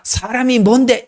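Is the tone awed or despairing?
awed. It sounds amazed and full of wonder. A human being was made great. "시편 팔 편에서 말하는 인간은 위대합니다"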